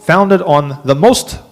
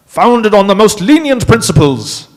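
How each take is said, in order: First: Said in the usual way. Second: Put-on British accent, higher and louder. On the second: Lecturer redoing the quote for the class in British accent. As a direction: read the quote again as a posh Brit. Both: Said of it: "can I do my British accent here".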